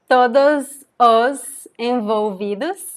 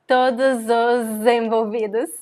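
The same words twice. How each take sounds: First: The words are said separately, without linking. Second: The words run together with linking z sounds.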